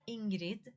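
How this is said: The name is said with a Swedish accent. "it is Ingrid in Swedish"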